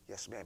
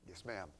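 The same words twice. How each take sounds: First: Respectful. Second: Heavy sigh, then a sulky yes ma'am; eye-rolling yes ma'am, soft; grudging sigh. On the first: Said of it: "a heart attitude that says". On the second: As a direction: sigh it out like a reluctant teen. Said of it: "Instead of". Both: Acted.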